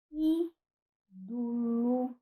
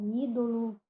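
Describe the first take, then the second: First: Ídolo said slowly as "ídulu", with the closed u sound; reduced final vowels. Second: Ídolo said with a clear o, "ídolo"; full o vowel. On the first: Teacher demonstrating to students a raised vowel in ídolo. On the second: Teacher giving students the alternative pronunciation of ídolo. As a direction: say ídolo keeping the middle o open and clear. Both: Shown as a demonstration. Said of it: "ou ídolo".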